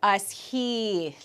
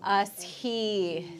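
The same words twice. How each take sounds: First: As he with the vowel drawn long. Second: As he with the E sound held long; drawn-out vowel. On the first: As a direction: stretch the vowel in As he. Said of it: "this one gets drawn out". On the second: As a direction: hold the E in As he. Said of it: "drawing out that I, that E sound". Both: Shown as a demonstration.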